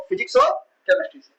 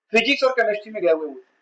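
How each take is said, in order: First: physics और chemistry से said much higher, each word ringing out; high, pointed reveal of physics और chemistry; emphatic answer. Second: Said in the usual way. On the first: Shown as a demonstration. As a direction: throw the answer up high to the class. Teacher answers own question emphatically.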